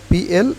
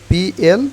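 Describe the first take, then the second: The two takes are said the same way.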